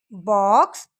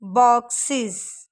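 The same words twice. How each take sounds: First: Said in the usual way. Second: बॉक्सेस slowly with a clear iz end. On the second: Shown as a demonstration. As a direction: stretch बॉक्सेस, mark the iz. (बॉक्सेस धीरे, इज़ साफ़) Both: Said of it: "इसका sound आ रहा है".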